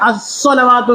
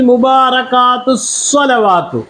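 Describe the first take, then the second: First: The word stands alone, starting with its own vowel. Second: The word runs on from the previous word. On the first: "ഒറ്റയ്ക്ക് ഉച്ചരിക്കുകയാണെങ്കിൽ അസ്വലവാത്ത് എന്ന് പറയും" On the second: "ചേർത്ത് പറയുമ്പോൾ എന്തുവരും?"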